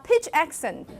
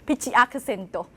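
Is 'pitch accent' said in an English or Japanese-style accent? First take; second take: English; Japanese. First: It is said in a plain English accent. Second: It is said with a Japanese accent.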